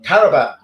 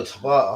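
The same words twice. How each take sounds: First: "Tarabat" called out loud, all three syllables; shouting the name as "Tarabat". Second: "Tabat" said short, two syllables; correcting himself to "Tabat". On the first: Streamer misreads a player's name, loud "Tarabat". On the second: Streamer corrects the name, plain "Tabat". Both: Shown as a demonstration. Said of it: "I thought you meant Tarabat".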